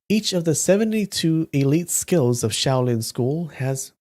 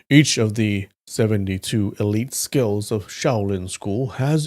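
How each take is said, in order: First: It is read in the reader's plain voice. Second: It is read in a put-on character voice. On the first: The speaker calls it wrong. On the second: The speaker calls it right.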